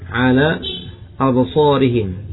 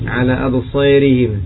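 First: The long vowel is a plain open a. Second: The long vowel is tilted toward e.

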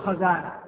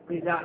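First: The first vowel is an a sound. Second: The first vowel is an i sound. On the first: The speaker calls it wrong. "لا تقول خزانة" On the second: The speaker calls it right. "الضبط الصحيح خزانة"

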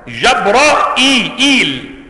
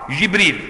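First: It has open a vowels and a glottal stop. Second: It has front i vowels and no glottal stop. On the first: "جبرائيل بفتح الجيم والراء وإثبات الهمزة مكسورة" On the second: "جبريل بكسر الجيم والراء وحذف الهمزة وإثبات الياء"

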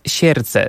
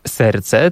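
First: The first consonant is soft, like 'sierce'. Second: The first consonant is a hard plain 's'. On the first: This is the old way of saying it. "Dawniej mówiono na przykład serce" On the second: This is the modern way of saying it. "zamiast serce"

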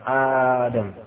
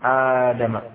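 First: The first vowel is drawn out long. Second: The same.

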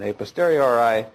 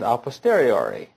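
First: It is pronounced the anglicized way. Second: It is pronounced the classical Latin way. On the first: "or you can pronounce it" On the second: "I tend to pronounce it the more authentically Latin way"

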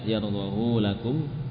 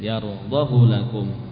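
First: The vowel after the h is lengthened. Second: The vowel after the h is short. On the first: The speaker calls it wrong. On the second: The speaker calls it right. "dibaca dengan pendek"

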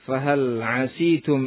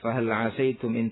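First: The vowel after the s is i. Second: The vowel after the s is a.

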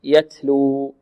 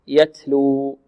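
First: The t is released with flowing breath. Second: The same.

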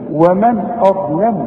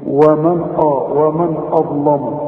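First: Only the ظ is heavy; the rest is light. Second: Every sound in the phrase is heavy and emphatic. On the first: The speaker calls it right. "الواو والميم والنون مرققين، والهمزة مرققة، الضاء هي المفخمة" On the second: The speaker calls it wrong. "إنما علشان الضاء قلت لي إيه؟"

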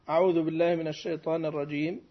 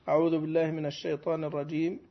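The two takes are said the same way.

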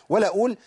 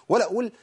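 No difference in how they are said.

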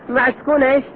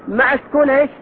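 No difference in how they are said.

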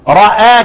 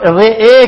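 First: The vowel after r is a fully open a. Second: The vowel after r leans toward ee. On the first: "الفتح راء" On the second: "الاماله رئي"

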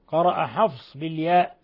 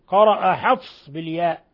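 The two takes are said the same way.

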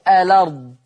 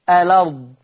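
Both takes have the same delivery.

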